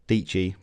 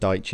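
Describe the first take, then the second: First: The name rhymes with peachy, starting with 'dee'. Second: The name starts with 'dye', like Daichi. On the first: "pronounced like peachy" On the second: "you probably end up pronouncing it like Daichi"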